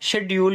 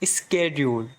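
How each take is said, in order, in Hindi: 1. यह शब्द गैर-अमेरिकी तरीके से बोला गया है। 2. यह शब्द अमेरिकी तरीके से बोला गया है।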